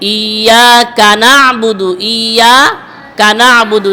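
The break comes after the syllable 'iya'. The speaker calls it wrong. "অনেকে কিন্তু পড়ে ইয়া কানাবুদু, না হবে না"

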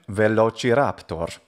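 It is said with ecclesiastical Latin pronunciation. "If we wanted to use an ecclesiastical pronunciation"

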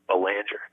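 The name is said with an American pronunciation. This is how it is said in America. "but here in America, uh-huh, it's actually"

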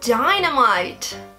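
It is said with an English pronunciation. "Et déjà en anglais"

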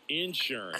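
The word is said in a Southern way.

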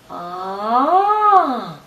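The pitch glides upward. "А тепер підйом"

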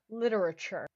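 The word is said in an American accent.

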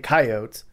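It is said in the South Dakota pronunciation. "they say coyotes"

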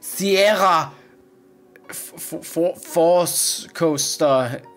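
The name is said with German pronunciation.

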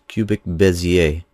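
Bezier is pronounced the French way.

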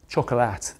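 The word is said the British way. It suggests the snap of chocolate. The speaker calls it wrong.

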